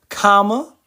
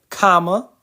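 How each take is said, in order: The two takes are said the same way.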